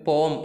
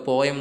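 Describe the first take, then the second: First: The word is said as one syllable. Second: The word is said as two syllables. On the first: The speaker calls it right. "പോം എന്നാണ് നമ്മൾ പറയാൻ" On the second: The speaker calls it wrong. "നിങ്ങളൊക്കെ പോയം എന്നാണ് അതിനെ pronounce ചെയ്യുക"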